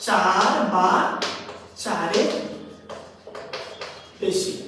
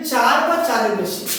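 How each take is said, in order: First: "চার বা চারের বেশি" word by word, lower; long pauses within "চার বা চারের বেশি"; slow dictation. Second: Said in the usual way. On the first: Shown as a demonstration. Teacher dictating a definition, "চার বা চারের বেশি" slowly spaced.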